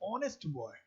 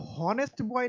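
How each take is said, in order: First: The first word begins with a vowel sound. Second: The first word begins with an h sound. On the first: The speaker calls it right. "एच यहाँ silent है" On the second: The speaker calls it wrong. "इसको हॉनेस्ट boy नहीं पढ़ते"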